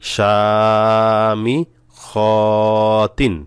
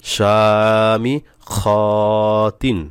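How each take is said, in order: Both takes have the same delivery.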